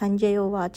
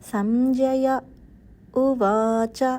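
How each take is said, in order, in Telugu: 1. రెండు పదాలు పాజ్ లేకుండా కలిసిపోతాయి. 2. రెండో పదానికి ముందు చిన్న పాజ్ ఉంటుంది. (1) "అని చదివేయకుండా" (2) "అని చదవాలండి"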